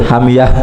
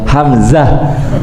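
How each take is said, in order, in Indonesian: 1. Huruf tengah itu bunyi y. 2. Huruf tengah itu bunyi z. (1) "huruf zai orang Jawa" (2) "Bukan hamyah, hamzah"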